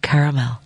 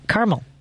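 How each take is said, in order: First: The word is said with three syllables. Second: The word is said with two syllables. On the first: "I get self-conscious and I do caramel" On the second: "spelling it C-A-R-M-E-L, which means that's how they pronounce it"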